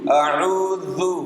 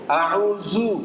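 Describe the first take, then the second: First: The consonant sounds like th in 'this'. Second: The consonant sounds like a plain z. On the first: The speaker calls it right. "Tapi kalau dia huruf zal, mundur dikit" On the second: The speaker calls it wrong. "itu jadi zai"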